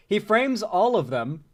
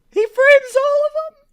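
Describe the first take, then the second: First: Said in the usual way. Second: Very high, loud, slow squeal; imitated true emotion. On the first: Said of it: "I love the way he says it". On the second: Streamer showing how he says it, imitated emotional shriek. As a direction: shriek it in mock-anguished falsetto. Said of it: "with true emotion".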